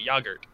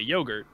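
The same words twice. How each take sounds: First: It is said with a British pronunciation. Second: It is said with an American pronunciation. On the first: "British people say yogurt" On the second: "when Americans say yogurt"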